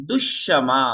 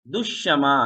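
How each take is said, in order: The two takes are said the same way.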